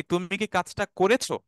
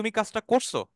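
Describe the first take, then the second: First: Full standard "করেছো", every syllable kept; standard Bangla form. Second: Colloquial "করছো" with the middle vowel dropped; everyday shortened "করছো"; spoken Bangla form. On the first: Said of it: "আর যখন আপনি স্পোকেনে বলছেন". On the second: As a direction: say "করছো" contracted, as in casual talk. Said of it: "যখন আপনি স্পোকেনে বলছেন". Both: Shown as a demonstration.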